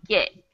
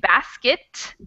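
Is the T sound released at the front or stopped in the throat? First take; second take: stopped; released. First: The T is stopped in the throat. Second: The T is released at the tongue tip. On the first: "I would say" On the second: "instead of saying"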